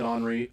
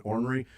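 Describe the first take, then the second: First: "Henri" for ornery, said AHN-ery; habitual pronunciation. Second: "ornery" as OR-ner-ee, as the coach said it; quoted pronunciation. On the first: Shown as a demonstration. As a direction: open AH with no R in "Henri". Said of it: "I've always said Henri". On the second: Retold or imitated. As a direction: sound the OR at the start of "ornery". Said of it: "say it as he said it".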